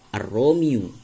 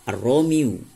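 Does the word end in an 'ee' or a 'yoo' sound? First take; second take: yoo; yoo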